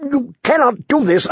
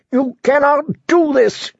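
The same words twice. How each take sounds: First: Desperate plea. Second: High shouted protest; shouting. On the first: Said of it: "the prisoner asked desperately". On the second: Prisoner shouting at the departing guards, high. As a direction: hurl it at their backs. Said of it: "the prisoner shouted". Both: A narrator's reading.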